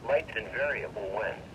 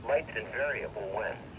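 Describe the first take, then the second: No difference in how they are said.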